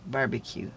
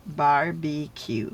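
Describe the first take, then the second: First: Said in the usual way. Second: BARBECUE stretched slowly into bar-bee-cue; syllable by syllable. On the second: Shown as a demonstration. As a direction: sound out BARBECUE in three slow parts. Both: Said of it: "I split it up into syllables".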